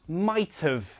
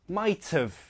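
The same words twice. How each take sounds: No difference in how they are said.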